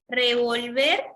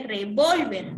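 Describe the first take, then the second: First: Revolver with stress on -VER; stress on the last syllable. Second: Revólver with stress on -VÓL-; revólver as a noun, stress on VÓL; stress on the second syllable. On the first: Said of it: "si ustedes lo escriben así". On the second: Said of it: "no es lo mismo que revólver". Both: Shown as a demonstration.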